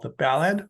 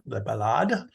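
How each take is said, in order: First: Said in the usual way. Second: "ballade" said the French way, stressed on the end; French pronunciation. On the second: Shown as a demonstration. Lecturer names the French stanzaic form, French pronunciation. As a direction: say "ballade" as buh-LAHD. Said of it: "based on a French stanzaic form".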